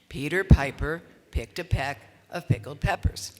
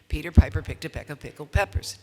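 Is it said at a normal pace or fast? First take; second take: normal; fast. First: It is said at a normal pace. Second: It is said fast.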